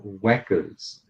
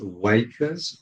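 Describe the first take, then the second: First: The vowel sounds like the one in 'whack'. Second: The vowel sounds like the one in 'wake'. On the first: The speaker calls it wrong. "or whackers" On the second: The speaker calls it right. "it can be pronounced wakers"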